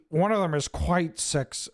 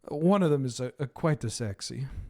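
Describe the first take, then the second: First: It is said in a plain, ordinary accent. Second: It is said in a put-on Italian accent.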